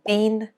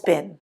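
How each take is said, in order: First: The vowel is long, like 'bean'. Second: The vowel is short, like 'bin'.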